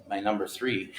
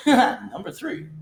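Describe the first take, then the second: First: Said in the usual way. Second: High laughing repeat, slow; giggling at his own slip. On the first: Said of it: "number three, number nine correction". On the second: Real, not acted. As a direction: laugh through the number. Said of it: "corrects to number nine".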